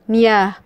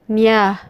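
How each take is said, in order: Both takes have the same delivery.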